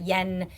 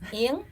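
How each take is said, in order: First: The name sounds like the English word yen. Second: The name sounds like the syllable ing. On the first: The speaker calls it wrong. "mispronouncing my name and calling me Yen" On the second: The speaker calls it right. "it's actually pronounced Ing"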